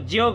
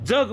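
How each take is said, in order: First: The first consonant is a palatal 'j' sound. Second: The first consonant is a dental 'dz' sound. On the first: The speaker calls it wrong. "जग म्हणतो का? ... नाही म्हणत" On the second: The speaker calls it right. "जग म्हणतो. ... त्यावेळेस ते दंत तालव्य"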